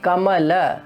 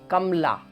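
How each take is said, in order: First: The short vowel after the m is pronounced. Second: The short vowel after the m is dropped. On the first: The speaker calls it right. "it is Kamala" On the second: The speaker calls it wrong. "we are going to pronounce it as Kamla"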